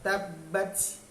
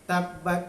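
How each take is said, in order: First: The final t ends with an audible hissing release. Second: The final t ends with a plain stop. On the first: The speaker calls it right. "tabbats bats bunyi" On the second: The speaker calls it wrong. "bukan tabbat yada"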